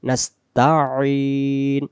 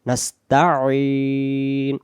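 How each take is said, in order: The two takes are said the same way.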